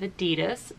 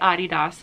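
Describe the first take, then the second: First: It is said the American way. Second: It is said the international, German-style way. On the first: This is how it is said in the United States. "instead of Adidas" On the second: This is how most of the world says it. "I say Adidas"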